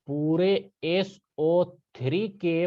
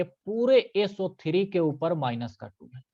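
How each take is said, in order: First: Very slow, each symbol spelled out for emphasis; slow down so the class takes it in; slow teacher emphasis on पूरे S O three के. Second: Said in the usual way. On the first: Shown as a demonstration. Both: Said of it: "ये बात ध्यान रखना".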